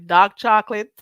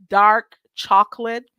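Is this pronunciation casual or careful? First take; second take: casual; careful. First: It is said in her usual casual pronunciation. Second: It is said in a careful standard pronunciation. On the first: This is how the speaker normally talks. The speaker calls it wrong. "how I say it normally" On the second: This is the expected standard way. The speaker calls it right. "say it the right way"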